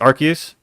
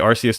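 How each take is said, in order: First: The first syllable sounds like 'ark'. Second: The first syllable sounds like 'arss'. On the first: "apparently it's Arceus" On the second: "I say Arceus too"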